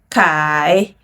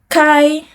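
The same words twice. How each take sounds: First: The pitch dips low, then rises. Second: The pitch stays high and level.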